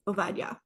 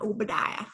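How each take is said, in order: First: The second consonant is a v sound. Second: The second consonant is a b sound. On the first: The speaker calls it right. "in Hebrew, the B's sound like V's" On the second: The speaker calls it wrong. "Not Obadiah"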